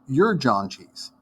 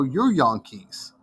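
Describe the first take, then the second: First: It is said in a plain American accent. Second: It is said in a thick Dutch accent.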